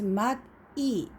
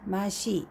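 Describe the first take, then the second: First: The two syllables are said separately with a t sound. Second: The syllables are linked, with an s sound between. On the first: "The separately, this is mat E" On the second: "But when you read together"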